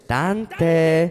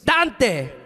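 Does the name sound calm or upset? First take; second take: calm; upset. First: The name is said in a calm tone. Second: The name is said in an upset tone.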